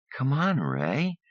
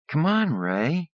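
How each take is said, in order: First: High, slow, drawn-out whine; whiny pleading. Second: Even higher drawn-out whine; whiny pleading. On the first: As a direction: stretch it out, coaxing. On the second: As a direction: coax him, pitch rising. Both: Acted. Andrea whines at Ray.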